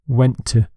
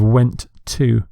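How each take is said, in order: First: The two words run together smoothly. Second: The two words are said separately. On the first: The speaker calls it right. "a natural way of speaking English is connecting words together" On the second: The speaker calls it wrong. "Instead of"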